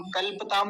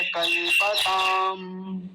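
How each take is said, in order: First: कल्पताम quick, प run into ताम; mistaken pronunciation. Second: कल्पताम slowly, with a full pa; correct pronunciation. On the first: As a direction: drop the a after प in कल्पताम. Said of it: "कल्पताम नहीं". (कल्पताम में प आधा बोलकर) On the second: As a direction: draw out कल्-प-ताम, the last vowel held. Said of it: "प पूरा है". (कल्पताम में प पूरा, खींचकर) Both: Shown as a demonstration.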